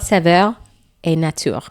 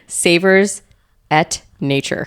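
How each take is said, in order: First: It is said with a French-sounding pronunciation. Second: It is said with an American accent.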